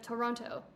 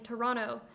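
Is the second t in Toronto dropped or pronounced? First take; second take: pronounced; dropped. First: The second t sound is clearly pronounced. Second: The second t sound is dropped. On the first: "instead of Toronto" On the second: "you're saying Toronto"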